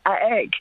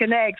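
First: The N sound is left out. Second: The N sound is clearly pronounced. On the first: The speaker calls it wrong. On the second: The speaker calls it right.

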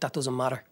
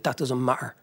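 First: The T in matter sounds like a D. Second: The T in matter becomes a glottal stop. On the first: "where he's turned the T's into a D" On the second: "there's a glottal pop where the T gets removed completely"

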